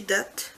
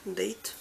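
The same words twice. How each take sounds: First: Date misread as "dat"; mispronounced Date. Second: Date said as "deyt"; corrected Date. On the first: Vlogger misreading a shade name, Date said as "dat". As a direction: say Date with an "a" as in chat. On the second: Vlogger fixing the shade name, Date said as "deyt". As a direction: say Date with the English vowel, softly. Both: Real, not acted.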